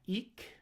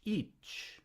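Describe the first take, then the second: First: The word ends with a hard k sound. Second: The word ends with a ch sound. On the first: The speaker calls it wrong. "Is that eek?" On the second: The speaker calls it right. "front cha if it's fronted by a front vowel"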